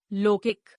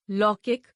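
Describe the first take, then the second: First: लौकिक with "o" for "au"; mispronounced. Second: Said in the usual way. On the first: Shown as a demonstration. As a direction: say लौकिक as "lokik". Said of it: "अशुद्ध". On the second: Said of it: "शुद्ध".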